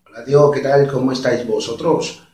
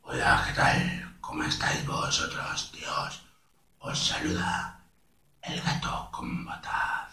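First: Imitated Castilian accent at usual pitch; Spain Spanish accent. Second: Slow, hushed, husky Spanish cat; El Gato con Botas. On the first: Showing step one to viewers, Castilian accent. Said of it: "un español, de España". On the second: Showing all steps to viewers, slow hoarse character voice. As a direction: breathe it out low and slow in Castilian. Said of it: "si le pones lo hablar lento". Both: Shown as a demonstration.

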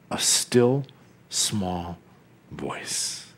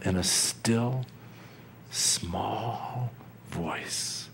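First: Each word softer, ending in a breathy whisper; fading to a whisper. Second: Softer and softer, ending in a whisper; fading whisper. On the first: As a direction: let the voice shrink away to nothing. Still small voice" enacted. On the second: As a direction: let it die away on "small voice". Still small voice" enacted again. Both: Acted.

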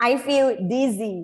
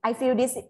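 First: Slow "dizzy" with a clearly buzzed Z; voiced Z. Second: "dizzy" with a hissed s, like "dissy"; missed Z sound. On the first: Student correcting herself for teacher, "dizzy" with buzzing Z. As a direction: buzz the zz in the middle of "dizzy". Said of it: "กลับมาออกเสียงใหม่". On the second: Student telling teacher she is sick, "dizzy" without the Z buzz. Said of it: "อุ๊ย ลืมออกเสียงตัว Z". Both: Shown as a demonstration.

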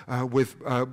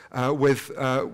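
Both takes have the same delivery.

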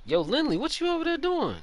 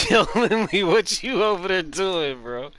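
First: Calling across to a teammate, louder and higher; playful call across the course. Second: Loud, high, slow teasing call-out; louder call. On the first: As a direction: shout it over to Lindley. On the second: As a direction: yell it across at Lindley, stretched out. Calling out to teammate again. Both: Real, not acted.

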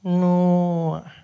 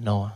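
First: Loud, drawn-out "Noah"; slow clerk echo of "Noah"; unfriendly receptionist. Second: Said in the usual way. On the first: Acted. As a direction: repeat "Noah" higher and stretched. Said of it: "She's not friendly at all".

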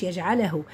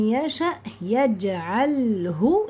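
First: "يجعله" quick, as "yaj'ala-hu"; wrong vowelled lam. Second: "يجعله" slow, as "yaj'al-hu"; silent-vowel lam. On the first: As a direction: slip a vowel after l in "يجعله". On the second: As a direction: hold the bare l in "يجعله". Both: Shown as a demonstration. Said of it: "اللام ساكنة مش".

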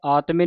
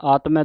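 First: ਆਤਮੇ ending in a closed "e"; wrong vowel ending. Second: ਆਤਮੈ ending in an open "ai". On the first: Teacher shows congregation the misreading, ਆਤਮੇ with closed final "e". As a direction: say ਆਤਮੇ with a narrow final "ay" sound. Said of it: "ਨਹੀਂ ਪੜ੍ਹਨਾ". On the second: Teacher shows congregation the reading, ਆਤਮੈ with open final "ai". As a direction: say ਆਤਮੈ with a wide final "ai" as in "cat". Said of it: "ਦਲਾਵਾਂ ਦੇ ਨਾਲ". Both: Shown as a demonstration.

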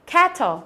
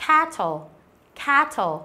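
First: Cattle with a wide flat æ; flat æ demo. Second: Cattle with the flat æ; flat æ again. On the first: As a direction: spread the lips on cattle. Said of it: "cô bè miệng ra nhá". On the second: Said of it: "chọn là âm e bẹt". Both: Shown as a demonstration.

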